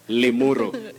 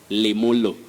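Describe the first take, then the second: First: The middle consonant is an R sound. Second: The middle consonant is an L sound. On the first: "can you say limuru?" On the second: "sometimes you can hear of limulu"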